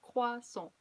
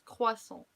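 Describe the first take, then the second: No difference in how they are said.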